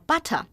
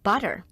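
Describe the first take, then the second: First: It is said in a British accent. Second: It is said in an American accent. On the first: "在英式发音里呢，这个叫 butter" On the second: "但是在美式的发音里，这叫 butter"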